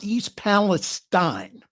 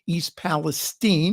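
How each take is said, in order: First: The last syllable has no long E sound. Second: The last syllable has a long E sound. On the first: The speaker calls it wrong. "not East Palestine" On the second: The speaker calls it right. "long E"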